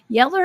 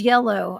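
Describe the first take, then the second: First: It is said with a Southern 'yeller' ending. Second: It is said with a standard 'yellow' ending.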